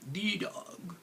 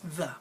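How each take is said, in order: First: The vowel in 'the' is a full vowel. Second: The vowel in 'the' is a reduced schwa. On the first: This is the older way of saying it. "It used to be a long time ago. People would say this was the" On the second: This is how people say it now. "But now we say the"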